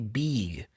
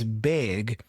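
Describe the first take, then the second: First: The vowel is said the Brazilian learner's way. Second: The vowel is said the standard English way. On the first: The speaker calls it wrong. "the Brazilian learner would typically say big" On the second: The speaker calls it right. "It's big and six"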